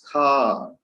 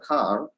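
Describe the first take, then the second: First: The word is stretched out long. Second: The word is said short and plain. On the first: The car is very spacious and long. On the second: It is an ordinary car.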